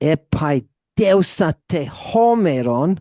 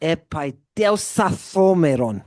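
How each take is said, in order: First: The final vowel is pronounced before the next word. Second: The vowel is dropped and the t is aspirated.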